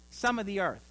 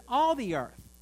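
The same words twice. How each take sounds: First: "some" stressed, in an everyday pitch; deliberate misquote. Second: "All" punched high and loud, then falling; stress on "All". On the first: Preacher misquotes the psalm to the congregation, "some" lightly stressed. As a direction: slip in "some" as if it were the verse. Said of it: "Now he says". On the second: Preacher corrects the psalm verse, "All" punched high and loud. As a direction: hit "All" hard to correct the misquote. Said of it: "meaning that's all of us". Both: Shown as a demonstration.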